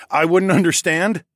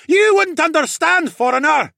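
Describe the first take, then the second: First: Short laugh, then loud, raised incredulous question; chuckle, then throw the words back as a question; chuckling disbelief. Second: Very high, loud jeer; scornful heckler shout. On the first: Hero answering a heckler, chuckling incredulously. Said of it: "I chuckled and shook my head". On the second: Crowd member to a foreigner, scornful shouting. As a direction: shout it down at an outsider. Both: A narrator's reading.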